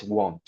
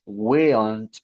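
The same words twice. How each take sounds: First: WON'T said with a long o, 'wohnt'; correct pronunciation. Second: WON'T mispronounced as 'wiln't', with the short i of 'will'; wrong pronunciation. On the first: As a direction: say WON'T as one syllable with an oh vowel. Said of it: "es won't". (WON'T bien pronunciado, con o larga: 'wount') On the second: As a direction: say WON'T wrongly as 'will' plus n't, drawn out. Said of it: "No es won't o algo por el estilo". (WON'T mal pronunciado, como 'wiln't', con la i de 'will') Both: Shown as a demonstration.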